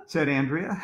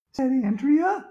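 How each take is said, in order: First: Said in the usual way. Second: High schoolgirl voice on "said Andrea"; girl's voice. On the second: A narrator's reading. Reader stays in Andrea's voice for the tag, high-pitched.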